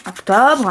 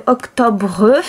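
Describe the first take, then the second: First: "octobre" said whole, settling with a falling tune; word read again. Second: "octobre" read out slowly syllable by syllable, tune rising as if listing; reading word aloud. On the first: Repeating "octobre" for the child, closing with a fall. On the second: Showing a child how to read "octobre", sounded out with a rise. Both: Shown as a demonstration. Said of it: "on va apprendre que octobre".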